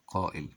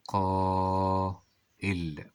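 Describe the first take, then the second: First: Said in the usual way. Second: قائل with a very long held aa; slow teacher's sounding-out; drawn-out dictation. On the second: Shown as a demonstration. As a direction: stretch it slowly, then land on the hamza. Teacher sounds word out, then repeats.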